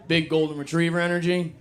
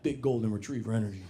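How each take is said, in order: First: Disbelieving echo of the phrase, pitch up; incredulous repeat. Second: Trying the phrase out. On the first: Real, not acted. Comic echoing a girlfriend's phrase, incredulous. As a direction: repeat Big golden retriever energy as if you can't believe it. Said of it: "You heard that?". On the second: Shown as a demonstration. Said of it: "I'm gonna start saying that".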